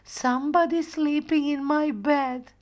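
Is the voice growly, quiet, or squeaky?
squeaky. The voice is high and squeaky. Little Bear is speaking.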